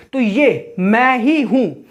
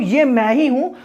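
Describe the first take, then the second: First: Slow, with ही leaned on hardest and ये, मैं, हूँ said lightly; teacher showing the sentence slowly, stressing ही; slow emphasis. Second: ये punched as the first word, then मैं ही हूँ said lightly; stress on ये. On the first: Teacher to students, slow with ही stressed. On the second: Teacher showing students the emphasis on ये. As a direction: open with a strong ये, the rest light. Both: Shown as a demonstration. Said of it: "ये पे ज़्यादा जोर दिया जा रहा है".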